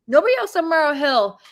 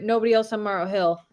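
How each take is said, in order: First: NOBODY punched higher and louder; emphatic repeat. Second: Said in the usual way. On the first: Real, not acted. Storyteller repeating for her viewers, emphatic stress on "nobody". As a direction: hit "nobody" high and hard, then fall.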